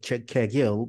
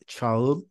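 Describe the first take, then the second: First: The name has a hard g in the middle. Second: The name has a soft gliding sound in the middle. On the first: The speaker calls it wrong. "not uh, written um, reading as uh" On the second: The speaker calls it right. "but it's Çağıl, like like G H in English"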